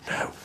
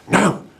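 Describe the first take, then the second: First: It is said softly, in a quiet whisper. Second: It is said loudly, a forceful half-whisper.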